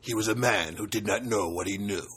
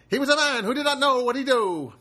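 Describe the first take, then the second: First: It is in a deep movie-trailer voice. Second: It is in a 1950s announcer voice.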